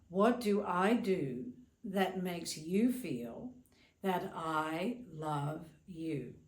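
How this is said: It is asked in a dismissive, self-centered tone.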